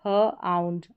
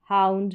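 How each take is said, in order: First: ह आउंड in two parts, "huh - aund"; sounding out. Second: Said in the usual way. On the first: Shown as a demonstration. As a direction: hold ह apart from आउंड. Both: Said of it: "इसका उच्चारण आउंड करके".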